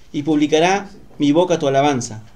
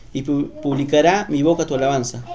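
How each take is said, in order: The two takes are said the same way.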